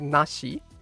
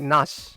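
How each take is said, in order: First: The word is said with both syllables. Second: The word is clipped, dropping the final vowel. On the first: "instead of separating both, like to say like nashi" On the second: "she just goes like nash"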